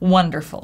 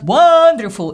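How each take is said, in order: First: The first vowel is short and neutral. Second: The first vowel is a full, open vowel. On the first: The speaker calls it right. "Short, neutral, wonder" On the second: The speaker calls it wrong. "It's not wonderful"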